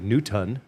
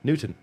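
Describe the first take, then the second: First: The T is pronounced fully and clearly. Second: The T is pronounced only lightly. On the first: The speaker calls it wrong. "they'll enunciate it wrong and say Newton" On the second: The speaker calls it right. "You got to put the little bit of a T in there"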